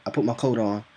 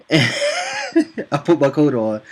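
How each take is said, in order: First: Said in the usual way. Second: Loud, high, slow laughing repeat. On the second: Real, not acted. Storyteller recalling walking off the chat, laughing. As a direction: crack up while saying it, drawn out.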